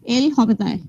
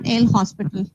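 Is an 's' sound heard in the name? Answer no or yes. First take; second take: no; yes. First: The name is said without an 's' sound. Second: The name is said with an 's' sound. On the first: The speaker calls it right. "how you will pronounce it?" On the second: The speaker calls it wrong. "not El Hospital"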